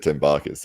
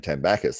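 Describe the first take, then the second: First: Said in the usual way. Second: "Tambakis" with a short A, as in "back"; "Tambakis", quoting someone else's way of saying it; another person's pronunciation. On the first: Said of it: "I've always said Tembakis". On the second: Retold or imitated. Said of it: "Jake Ward saying Tambakis".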